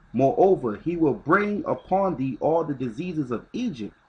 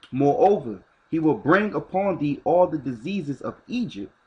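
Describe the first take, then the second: Both takes have the same delivery.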